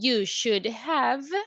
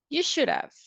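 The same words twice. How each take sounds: First: "Have" is said as a full separate word. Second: "Have" is reduced into a contraction. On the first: "Instead of saying" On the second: "we say"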